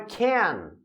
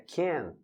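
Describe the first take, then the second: First: The word is said full and forced. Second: The word is said weak and reduced. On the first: It sounds like the negative form. The speaker calls it wrong. "Não é can, ... Se a pronúncia sair can, forçado" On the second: It is the positive form. The speaker calls it right. "é can"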